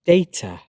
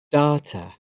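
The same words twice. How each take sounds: First: "data" as DAY-ta; British pronunciation. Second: "data" as DAH-ta, with an open "ah"; American pronunciation. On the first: Teacher reading the British form of each pair, British pronunciation. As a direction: say "data" with an "ay" in the first syllable. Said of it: "I'm a British English native speaker". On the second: Teacher trying the American form, American pronunciation. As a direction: say "data" with an "ah" in the first syllable. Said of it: "my American pronunciation". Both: Shown as a demonstration.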